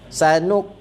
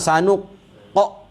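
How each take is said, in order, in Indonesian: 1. Huruf q berakhir dengan detak yang ringan dan lembut. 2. Huruf q berakhir dengan detak yang kuat dan berat. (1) "ada detik detak sikit" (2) "Jangan kuat. Jangan sanuq qa, ah, tak betul"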